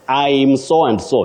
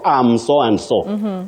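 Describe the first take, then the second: First: The first word begins with an 'eye' vowel. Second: The first word begins with a short 'a' vowel. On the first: The speaker calls it right. "you say I'm" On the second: The speaker calls it wrong. "not am so and so"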